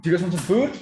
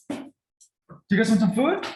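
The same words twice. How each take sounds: First: Much louder and higher, rising excited offer; hyped food call. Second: Much higher and louder, slow stretched excited offer; even more hyped food call. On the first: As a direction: pump the dogs up before dinner. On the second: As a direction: drag it out to wind them up further. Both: Shown as a demonstration. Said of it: "maybe I'll give you an example".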